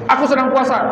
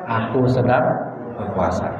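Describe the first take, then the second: First: It is said in a high, raised voice. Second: It is said in a low, soft voice. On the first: The speaker sounds ready to pick a fight. The speaker calls it wrong. "Itu nada tinggi juga" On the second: The speaker stays calm and refuses to fight. The speaker calls it right. "Dengan nada rendah"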